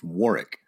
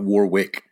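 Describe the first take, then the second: First: The second W sound is silent. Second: The second W sound is pronounced. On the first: The speaker calls it right. "you don't say the second W" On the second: The speaker calls it wrong. "It's not Warwick"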